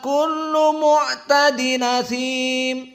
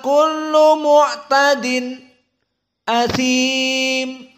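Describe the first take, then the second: First: The glottal catch drops; the nun links into 'asim'. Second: A brief silent stop comes just before 'asim'. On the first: "isba madsilah ma'an nakal" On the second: "Maka di sini dia saqt"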